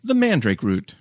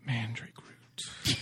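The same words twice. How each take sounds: First: Said in the usual way. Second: Slow, hushed spooky title; spooky whisper. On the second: Shown as a demonstration. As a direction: breathe it out slow and eerie. Dramatic title read.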